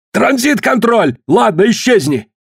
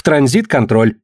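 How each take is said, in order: First: Exasperated high-pitched command; impatient shout. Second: Said in the usual way. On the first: A narrator's reading. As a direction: cut in and dismiss them, pitch thrown up. Collins cuts in, impatiently ordering.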